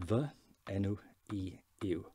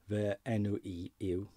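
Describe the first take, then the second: First: "Fy enw i yw" slowly, stressing Fy; slow Welsh phrase. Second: "Fy enw i yw" slowly, vuh en-oo ee yoo; slow Welsh phrase. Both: Shown as a demonstration. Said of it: "So it is".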